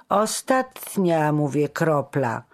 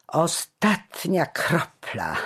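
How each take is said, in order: First: "Ostatnia" stretched out high and loud; emphatic insistence. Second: Slow, drawn-out mocking delivery, pitched up; derisive jeer. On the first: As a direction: lean hard and slowly on "Ostatnia", then firm on "kropla". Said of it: "wyrzekł z naciskiem starszy". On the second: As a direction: draw it out scornfully. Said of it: "zaśmiał się szyderczo". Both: A narrator's reading.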